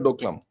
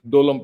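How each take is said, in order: First: A k sound is heard before the l. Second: No k sound is heard before the l. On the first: This is the name others adopted from outside. The speaker calls it wrong. "It's not Doklam" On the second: This is the name of the plateau itself. The speaker calls it right. "It's Dolam Plateau"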